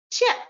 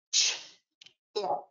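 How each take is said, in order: First: Said in the usual way. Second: "Ch" and "ip" said apart with a pause between; segmented sounds. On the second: Shown as a demonstration. Teacher modelling onset and rhyme, sounds apart. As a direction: split the sounds as "Ch" and "ip". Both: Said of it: "let me give you a few examples".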